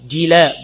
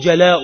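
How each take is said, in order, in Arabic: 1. الصوت الأول هو صوت i. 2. الصوت الأول هو صوت a. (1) "جلاء بالكسر" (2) "جلاؤها يعني رحيلها"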